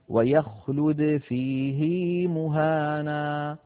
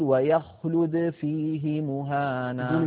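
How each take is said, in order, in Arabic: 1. الحركة التي بعد الهاء تُمَدّ وتطول. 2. الحركة التي بعد الهاء تبقى قصيرة. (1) "صلة هذه الهاء بياء لفظية" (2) "كان القاعدة أن يقول"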